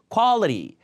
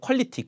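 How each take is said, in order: First: It is said American-style with a flapped middle. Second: It is said with flat Korean-style syllables. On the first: The speaker calls it right. "quality 미국 발음" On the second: The speaker calls it wrong. "퀄리티 이러면 잘 못 알아들어요"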